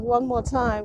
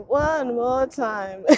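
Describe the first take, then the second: First: Singing the song. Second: Stretched out singing. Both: Retold or imitated. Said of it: "What's that Daft Punk song".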